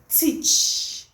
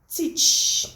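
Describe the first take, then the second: The two takes are said the same way.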